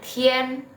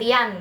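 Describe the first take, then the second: First: The vowel after i sounds like e. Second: The vowel after i sounds like a. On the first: The speaker calls it right. "bacanya Tien" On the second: The speaker calls it wrong. "bukan Tian ya"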